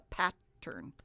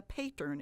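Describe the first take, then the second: First: "pattern" said as PAT... tern; short A. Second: "pattern" said as PAY-tern; long A, mispronounced. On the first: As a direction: say "pattern" with the A of cat, split in two. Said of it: "where the consonant stops the A". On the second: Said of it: "it isn't a pattern". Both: Shown as a demonstration.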